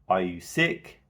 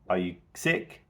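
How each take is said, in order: First: The pitch rises at the end. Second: The pitch rises at the end.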